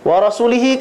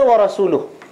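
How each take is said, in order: First: The word ends in an 'ee' vowel sound. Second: The word ends in an 'oo' vowel sound. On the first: The speaker calls it wrong. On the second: The speaker calls it right.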